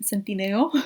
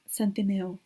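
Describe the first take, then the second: First: Centineo said with Spanish vowels, tsen-tee-NEH-oh. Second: Said in the usual way. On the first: Shown as a demonstration.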